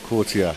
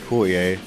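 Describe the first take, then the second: First: The T sounds in the name are clear. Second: The T sounds in the name are soft. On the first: "that's the proper way you should say it, and you must pronounce the T's" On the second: "I say Courtier"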